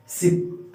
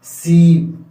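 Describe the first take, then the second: First: सिप said with a short, quick i, breathed out; short i sound. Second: सीप with the ee held long and said out loud; long ee sound. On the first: Teacher demonstrating a short vowel to students, quick. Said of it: "ऐसे जल्दी से बोल देते हैं ना short sound". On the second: Teacher demonstrating a long vowel to students, stretched. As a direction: draw out the ee in सीप, fuller. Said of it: "ऐसे बोलते हैं". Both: Shown as a demonstration.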